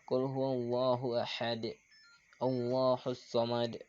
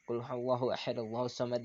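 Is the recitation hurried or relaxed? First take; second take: relaxed; hurried. First: It is recited relaxed with an audible bounce. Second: It is recited hurriedly without a bounce. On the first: The speaker calls it right. "ketika kita rileks" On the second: The speaker calls it wrong. "itu kan jadi qalqalahnya tidak terdengar"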